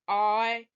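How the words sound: It is said in a low, deep voice. "Let's say it with a low voice"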